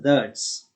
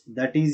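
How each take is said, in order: First: The words merge into one contracted syllable. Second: Both words are said fully and separately. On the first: "pronounced as that's" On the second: "that is is pronounced as that's"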